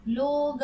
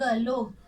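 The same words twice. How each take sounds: First: लोग split as a long लो, then ग; लोग stretched into लो... ग; sounded out. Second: Said in the usual way. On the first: Shown as a demonstration. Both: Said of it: "क्या नया शब्द बन गया".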